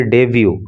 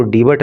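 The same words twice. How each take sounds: First: Debut read as "डेब्यू", ending in byoo, silent t; correct debut pronunciation. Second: Debut misread as "डिबेट", with a sounded final t. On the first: Teacher showing students how to read it, correctly pronounced debut. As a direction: say "डेब्यू" with no final t. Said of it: "इसके pronunciation पे आप ध्यान देना". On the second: Teacher warning students off a misreading, mispronounced debut. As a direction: say "डिबेट", the wrong reading of debut. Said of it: "इसके pronunciation पे आप ध्यान देना, इसको डिबेट नहीं पढ़ेंगे". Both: Shown as a demonstration.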